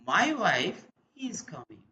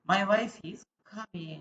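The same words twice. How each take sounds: First: It sounds happy, with a lively tune. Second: It sounds uninterested, with a falling tune. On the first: The speaker is glad the wife is coming. "here is saying the feeling happy about his wife" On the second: The speaker does not care that the wife is coming. "That is the falling tone. You are not interested"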